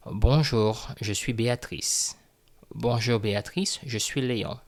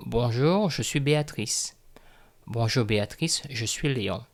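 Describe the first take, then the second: No difference in how they are said.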